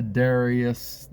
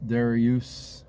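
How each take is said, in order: First: "Darius" ending in a short us; Darius as DAIR-ee-us. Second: "Darius" ending in a long oos; Darius as DAIR-ee-oos. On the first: Teacher offering a name's first variant, Darius as DAIR-ee-us. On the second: Teacher offering an alternative name, Darius as DAIR-ee-oos. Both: Shown as a demonstration. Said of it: "however you pronounce that".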